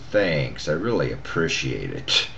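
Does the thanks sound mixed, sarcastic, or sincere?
mixed. It sounds partly grateful, partly ironic. The gratitude is starting to wear thin. "Then it kind of got to"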